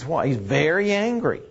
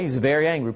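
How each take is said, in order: First: Said in the usual way. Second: Very pressed a little harder than angry; stress on very. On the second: Shown as a demonstration. Preacher stressing how angry Abner was. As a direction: lean gently into very. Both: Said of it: "Okay, he's very angry".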